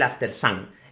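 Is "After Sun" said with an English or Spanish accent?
Spanish. It is pronounced with a Spanish accent. "En España le decimos"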